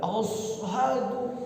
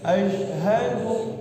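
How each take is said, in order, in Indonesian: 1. Diucapkan dengan desis s biasa. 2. Diucapkan dengan bunyi sh yang lirih. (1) "itu kan menyalahi" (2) "di tengah-tengah lidah"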